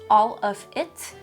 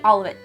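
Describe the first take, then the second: First: The three words are said clearly and separately. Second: The three words are blended into one sound.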